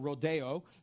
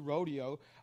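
First: The word is said a fancier, foreign-sounding way. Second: The word is said the plain, everyday way.

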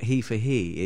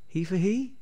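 First: The voice falls at the end, like a statement. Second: The voice rises at the end, like a question. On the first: It is a statement. The speaker calls it wrong. "wasn't a statement" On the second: It is a question. The speaker calls it right. "It was a question"

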